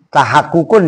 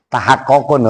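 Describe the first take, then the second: First: The vowel after the doubled consonant is u. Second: The vowel after the doubled consonant is o. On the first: The speaker calls it right. "baca salah tahak tahak kukun" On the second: The speaker calls it wrong. "dibaca tahak kokun"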